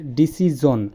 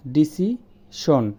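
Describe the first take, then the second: First: "ডিসিজন" with a voiced zh; correct pronunciation. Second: "ডিসিশন" very slowly with an s-sh sound; drawn out, "ডিসিশন" as disishon; common mispronunciation. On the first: The teacher models disijon. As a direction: say "ডিসিজন" with a buzzing j. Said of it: "এটা হচ্ছে". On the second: The teacher slowly shows disishon. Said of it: "আমরা বলি". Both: Shown as a demonstration.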